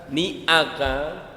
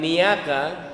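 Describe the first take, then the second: First: The syllables are separated by a glottal break. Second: The syllables run together with no break. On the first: The speaker calls it right. "ada hamzah, artinya dipisah" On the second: The speaker calls it wrong. "bukan niaka"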